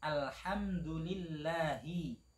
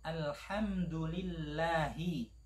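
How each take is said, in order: No difference in how they are said.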